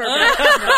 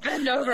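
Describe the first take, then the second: First: High, loud laughing command; bossy shout. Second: Said in the usual way. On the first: Retold or imitated. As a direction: bark it out through laughter. Acted command, repeated louder.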